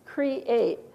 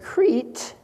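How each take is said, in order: First: The word is said as two syllables. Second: The word is said as one syllable. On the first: The speaker calls it right. "It's create" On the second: The speaker calls it wrong. "we don't say crete"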